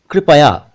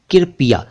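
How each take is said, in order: First: कृपया said kri-pa-ya, r clustered with k; कृपया with kr together, slowly; correct kripaya. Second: कृपया said as kirpiya, i before r; कृपया with the vowel wrongly before r; mispronounced कृपया as kirpiya. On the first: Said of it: "कृपया ठीक है". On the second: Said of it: "कृपया ठीक नहीं है". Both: Shown as a demonstration.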